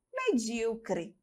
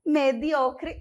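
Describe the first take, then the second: First: "medíocre" softer, stressed me-DÍ-o-cre; slow and soft, leaning on DÍ in "medíocre"; Portuguese stress on DÍ. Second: "Mediocre" stressed me-DIO-cre; Spanish stress on O. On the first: Teacher contrasts the Portuguese, softly stressing DÍ in "medíocre". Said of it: "e no português". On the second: Teacher repeats the Spanish oddity, stressing DIO in "Mediocre". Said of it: "Essa é diferente". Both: Shown as a demonstration.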